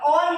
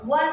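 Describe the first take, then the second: First: The word starts with a plain vowel sound. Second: The word starts with a w sound. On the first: The speaker calls it wrong. "ऑन म्हणता का?" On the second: The speaker calls it right. "तर तुम्हाला व वन म्हणावं लागतं"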